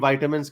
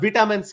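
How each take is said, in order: First: The first syllable has an 'eye' vowel. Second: The first syllable has a short 'i' vowel. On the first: This is how everyone else says it. "तो बाकी वाइटामिन कहते हैं" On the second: This is the British way. "खैर वो तो खैर सारी British कहते हैं"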